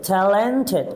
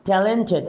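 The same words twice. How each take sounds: First: Talented drawn out as ta-len-ted; talented in three measured beats; syllable by syllable. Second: Said in the usual way. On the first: Shown as a demonstration. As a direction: sound out each syllable of talented. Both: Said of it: "কয়েকবার আমাকে থামতে হয়".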